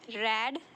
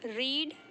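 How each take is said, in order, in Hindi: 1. स्वर छोटा 'e' वाला ध्वनि है। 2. स्वर लंबा 'ee' वाला ध्वनि है। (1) "इसे बोलते हैं रेड" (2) "हम इसे प्रोनाउंशिएट करते हैं रीड"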